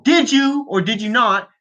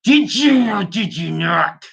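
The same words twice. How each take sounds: First: Mock interrogation. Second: Slow, strained, higher put-on voice; hammed-up interrogation, every word dragged out; mock furious demand. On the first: Podcaster questioning an absent politician, mock interrogation. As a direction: put the question like a moderator. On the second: Podcaster demanding an answer from absent politician, mock fury. Repeats the demand more forcefully.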